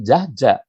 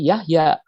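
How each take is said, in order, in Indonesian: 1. Nama ini diawali dengan bunyi J. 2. Nama ini diawali dengan bunyi Y. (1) "dibaca oleh anak-anak muda, pasti Jahja, bukan Yahya" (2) "itu dibacanya semacam ini"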